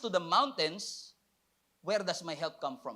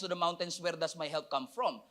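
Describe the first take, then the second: First: There is a clear pause after mountains. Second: It runs on without a pause after mountains. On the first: The question is separate from looking at the mountains. The speaker calls it right. "But with that punctuation, it changes a lot" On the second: The question seems to be about the mountains. The speaker calls it wrong. "kala ko tuloy-tuloy lang siya"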